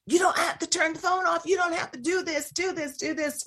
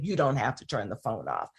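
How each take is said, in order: First: Much higher, mocking a white mom. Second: Lower, firm and steady; Black parent voice. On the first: Host mocks a white mom's confident reply to police. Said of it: "even you as a white mom saying". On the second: Retold or imitated. Host voices Black parents telling police, lower and firm. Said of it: "many Black parents who will say".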